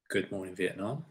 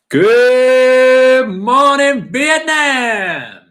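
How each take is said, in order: First: It is said lower and more quietly. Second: It is said loudly and energetically.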